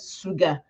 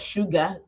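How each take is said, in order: First: It is said in a Yoruba accent with s. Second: It is said in standard English with sh.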